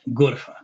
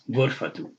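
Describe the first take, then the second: First: The word ends with a soft 'h' sound. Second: The word ends with a full 'tu' syllable. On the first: The word ends the sentence or stands alone. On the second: The word is followed by another word.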